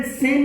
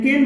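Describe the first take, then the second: First: सेन said with an s sound, the wrong way; wrong soft c. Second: केन said with a k sound, the right way; hard c. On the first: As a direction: start सेन with s, as the mistake to avoid. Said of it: "सेन नहीं बोलते हैं". (सेन को स की ध्वनि से, गलत उच्चारण) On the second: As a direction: start केन with a clear k. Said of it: "केन बोलते हैं". (केन को क की ध्वनि से, सही उच्चारण) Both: Shown as a demonstration.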